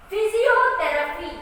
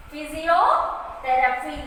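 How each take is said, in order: First: Physiotherapy high, in one piece; higher-pitched teacher's Physiotherapy with a strong O; stress on vowel. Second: Physiotherapy slowly, split "physio... therapy"; stressed syllable broken out. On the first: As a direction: model Physiotherapy as a whole word, leaning on the vowels. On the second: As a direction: draw out physiotherapy in two parts. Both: Shown as a demonstration. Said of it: "we are stressing with the vowels".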